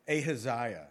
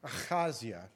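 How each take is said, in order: First: The name is pronounced in a common English way. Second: The name is pronounced in a Hebrew way. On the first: This is how many people usually say it. The speaker calls it wrong. "a lot of people will say Ahaziah" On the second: This is how it is said in the original language. The speaker calls it right. "It's Ahaziah in the Hebrew"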